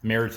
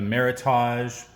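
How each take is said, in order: First: The ending rhymes with heritage. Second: The ending does not rhyme with heritage. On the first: "for the folks on the internet" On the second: "So we are trying the Meritage"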